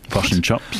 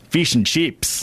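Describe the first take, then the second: First: It is said in a New Zealand accent. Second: It is said in an Australian accent. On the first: "What do Kiwis say?" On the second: "What do Australians say?"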